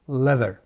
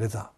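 First: It is said with an English accent. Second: It is said with a Japanese accent. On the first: The speaker calls it right. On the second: The speaker calls it wrong.

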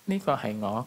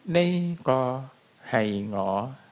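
First: The sentence is spoken at a quicker pace. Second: The sentence is spoken slowly and deliberately. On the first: This is how native speakers say it. "Người ta sẽ nói như thế này: ... tốc độ sẽ nhanh hơn một chút" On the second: It is slowed down so learners can follow. "mình ở đây mình sẽ đọc rất chậm để các bạn theo kịp"

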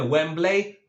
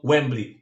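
First: It is pronounced with Polish-style sounds. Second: It is pronounced with English-style sounds. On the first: The speaker calls it wrong. "Nie mówimy Wembley" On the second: The speaker calls it right. "tylko Wembley"

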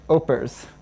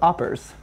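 First: The first syllable differs from the start of 'operator'. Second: The first syllable sounds like the start of 'operator'. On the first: The speaker calls it right. "Opers, not oppers" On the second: The speaker calls it wrong. "I thought it was like operator"

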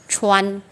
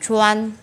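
No difference in how they are said.

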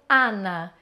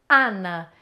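Both takes have the same delivery.

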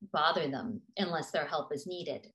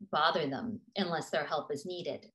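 The two takes are said the same way.

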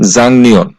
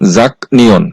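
First: The middle consonant is an ng sound. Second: The middle consonant is a k sound. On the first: The speaker calls it right. "এই শব্দটার সঠিক উচ্চারণ হবে জাংনিয়ন" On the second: The speaker calls it wrong. "এই শব্দটার উচ্চারণ হওয়ার কথা ছিল জাক নিয়ন"

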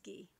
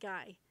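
First: The name sounds like 'ghee', French style. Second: The name rhymes with 'eye', English style. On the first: The speaker calls it right. "In this case, it's Guy, right?" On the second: The speaker calls it wrong. "At least I know how to not pronounce it Guy"

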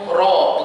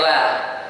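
First: The r-sound is thick with a deep, rounded vowel. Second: The r-sound is thin with a light, open vowel. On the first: The speaker calls it right. "Kama tebalah roh tu" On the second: The speaker calls it wrong. "bukan ra"

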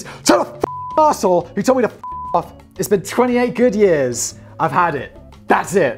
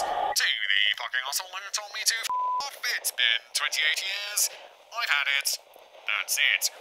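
First: It is said in the speaker's normal voice. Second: It is said in a put-on airline captain voice.

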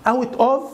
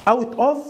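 Both takes have the same delivery.

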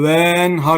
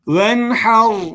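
First: The first vowel is drawn out long. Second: The first vowel is kept short. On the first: The speaker calls it wrong. "Kesinlikle venhar gibi böyle bir telaffuz şekline gitmiyoruz" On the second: The speaker calls it right. "Uzatma sakın yapmıyoruz"

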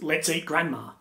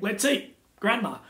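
First: It is said without a pause before grandma. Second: It is said with a pause before grandma.

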